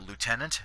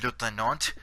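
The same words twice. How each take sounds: First: It is pronounced in an American style. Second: It is pronounced in a French style. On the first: "Americans pronounce it lieutenant" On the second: "the French pronounce it uh"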